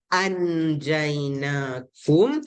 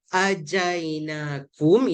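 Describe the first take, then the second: First: The n sound is pronounced fully and clearly. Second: The n sound is dropped and merges straight in. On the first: "dia tak boleh jelas" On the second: "itu kira masuk terus"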